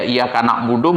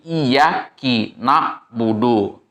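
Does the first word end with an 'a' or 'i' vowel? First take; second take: a; i. First: The first word ends with an 'a' vowel. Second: The first word ends with an 'i' vowel. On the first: The speaker calls it right. "itu itu itu itu fathah" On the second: The speaker calls it wrong. "Bikasril kaf, dengan kasrohnya kaf"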